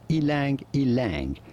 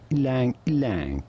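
First: Each word starts with an 'ee' sound before 'lang'. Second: Each word starts almost directly with the 'l' sound. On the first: This is the common way many people say it. "Many say it as ilang ilang" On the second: This is how it is said where the tree comes from. "in the countries it originates from, it is pronounced something more like lang lang"

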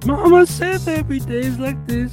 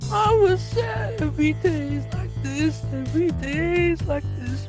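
First: The voice is plain and clear. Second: The voice is raspy and strained. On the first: The speaker calls it wrong. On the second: The speaker calls it right.

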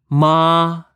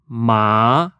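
First: The syllable stays on a high, level pitch. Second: The syllable rises from mid to high pitch. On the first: It means mother. "First tone. A high tone reflects a high pitch. Mother. Ma. It sounds like this" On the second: It means hemp. "Second tone. Rising tone is reflected in mid to high pitch as in asking what? Hemp. Ma. It sounds like this"

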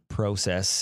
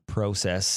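First: It is said with a Canadian accent. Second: It is said with a Canadian accent.

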